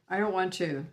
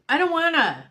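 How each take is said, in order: First: The phrase is said flatly, without expressive inflection. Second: The phrase is said with expressive, emotional inflection. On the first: "first I heard" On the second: "like with inflection"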